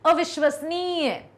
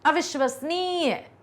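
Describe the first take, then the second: No difference in how they are said.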